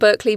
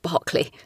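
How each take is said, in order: First: The name has an American pronunciation. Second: The name has a British pronunciation. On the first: "I think you call it Berkeley" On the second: "we would pronounce it Berkeley here in the UK"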